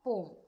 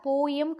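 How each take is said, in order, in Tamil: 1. இந்த சொல் ஒரு அசையாக சொல்லப்படுகிறது. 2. இந்த சொல் இரண்டு அசைகளாக சொல்லப்படுகிறது. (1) "அதை போம்னு நம்ம ப்ரனவுன்ஸ் பண்ணுவோம்" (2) "போயம் கிடையாது"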